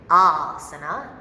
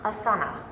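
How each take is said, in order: First: The A vowel is said long. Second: The A vowel is said short. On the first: The speaker calls it right. "pronounced asana, it's a long A" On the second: The speaker calls it wrong. "not asana"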